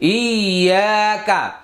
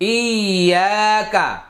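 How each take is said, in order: No difference in how they are said.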